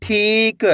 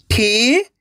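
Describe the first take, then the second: First: ठीक in one piece, long ई; blended whole word. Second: ठीक opened on a long rising ठी, क held apart; syllable by syllable. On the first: Teacher shows what it makes, ठीक blended together. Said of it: "तो मिलके बन जाएगा". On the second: Teacher sounds out for learners, ठीक split at the matra. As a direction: sound out ठीक in separate pieces. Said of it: "direct मात्रा का उच्चारण करके पढ़ेंगे". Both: Shown as a demonstration.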